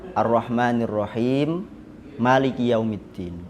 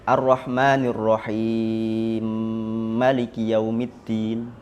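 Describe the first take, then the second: First: The m of Rahim and Maliki stay separate. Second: The m of Rahim merges into Maliki.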